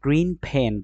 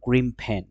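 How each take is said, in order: First: Green ends with a clear n sound. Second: Green ends with an m sound.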